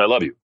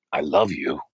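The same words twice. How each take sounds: First: Rather cold, flat delivery; quick, uninvested recital. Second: Low, slower, heartfelt declaration; a little passion. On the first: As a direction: say it like you don't mean it, toneless. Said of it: "Rather cold, flat". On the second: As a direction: imitate a man trying some passion. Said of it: "say it with a little bit of passion". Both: Retold or imitated.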